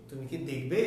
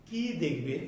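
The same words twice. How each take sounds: First: Brief কি, question rising on দেখবে; short কি. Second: Drawn-out, stressed কি, falling after it; long কী. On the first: Teacher asking whether you will look, short কি. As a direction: keep কি short and lift দেখবে at the end. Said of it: "ছোট করে দ্রুত উচ্চারণ". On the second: Teacher asking what you will see, long কি. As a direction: stretch the vowel of কি, then let দেখবে drop. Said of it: "দীর্ঘ করে উচ্চারণ করতে হবে". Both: Shown as a demonstration.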